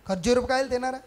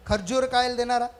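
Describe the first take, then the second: The two takes are said the same way.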